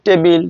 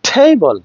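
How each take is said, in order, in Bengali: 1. প্রথম ব্যঞ্জনে কোনো ফুঁ বা বাতাসের ঝলক নেই। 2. প্রথম ব্যঞ্জনে জোরালো বাতাসের ঝলক আছে। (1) "টেবিল নড়ছে না" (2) "এটা কিন্তু নড়ছে"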